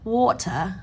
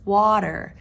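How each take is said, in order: First: The middle consonant is a clear T sound. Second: The middle consonant sounds like a D. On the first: "You may hear a British or European person say water" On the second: "we pronounce the T as a D sound"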